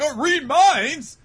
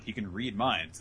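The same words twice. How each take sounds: First: High, loud, drawn-out shriek; mock shocked echo. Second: Said in the usual way. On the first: Attackers learning of the power, mock shocked shriek. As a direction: shriek it back in hammed-up disbelief.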